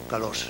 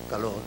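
First: The final r is a voiceless hissing sound. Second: The final r is a weak fricative sound. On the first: "ora como asibilado sordo" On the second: "ora como fricativo más o menos debilitado"

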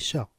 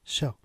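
Both takes have the same delivery.

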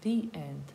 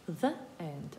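First: The article is said with a long 'ee' vowel. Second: The article is said with a short neutral vowel. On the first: The speaker calls it right. "у вимові у нас і, а не е" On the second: The speaker calls it wrong. "не the end"

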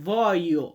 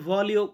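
First: No L sound is heard in the middle. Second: A clear L sound is heard in the middle. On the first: The speaker calls it right. "সঠিক উচ্চারণ হবে ভয়ো" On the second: The speaker calls it wrong. "বানামে যদি উচ্চারণ করতে যান এইভাবে ভলিও করতে পারেন"

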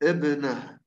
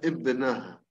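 Both takes have the same delivery.

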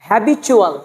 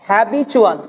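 Both takes have the same delivery.

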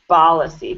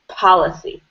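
First: The word begins with a b sound. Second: The word begins with a crisp p sound. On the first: The speaker calls it wrong. "I'm still hearing policy" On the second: The speaker calls it right. "So just clean up your P"

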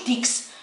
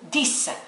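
First: The word ends with a ks sound. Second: The word ends with a plain s sound. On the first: The speaker calls it wrong. "ما نقولوش ديكس" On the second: The speaker calls it right. "نقولو ديس"

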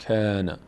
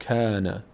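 The two takes are said the same way.

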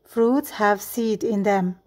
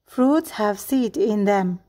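Both takes have the same delivery.

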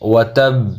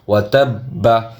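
First: The word ends clipped on a final consonant. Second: The word ends with a full final vowel. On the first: The reader stops at this word. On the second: The reading continues without a stop.

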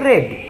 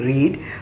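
First: The vowel is short, like 'red'. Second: The vowel is long, like 'reed'. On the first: The reading happened in the past. "past tense එකේ ශබ්ද කරන්නේ" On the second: The reading happens now. "present tense එකේ ශබ්ද කරන්නේ"

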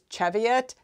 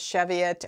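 First: The word gets its British pronunciation. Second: The word gets its American pronunciation. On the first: "the British is Cheviot" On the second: "the American pronunciation says Cheviot"

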